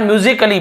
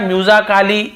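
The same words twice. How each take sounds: First: म्यूजिकली as myu-zik-lee, A left unsounded; correct pronunciation. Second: म्यूजिकली with a long "aa": myu-zaa-kaa-lee; wrong pronunciation. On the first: Teacher showing students the usual reading, म्यूजिकली as myu-zi-kuh-lee. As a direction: say म्यूजिकली with only a light "kuh-lee" ending. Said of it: "आप म्यूजिकली पढ़ रहे हैं". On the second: Teacher showing students a misreading, म्यूजिकली as myu-zaa-kaa-lee. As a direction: sound out म्यूजिकली with full "aa" vowels before the ending. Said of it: "ऐसे ए या आ या नहीं पढ़ रहे हैं". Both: Shown as a demonstration.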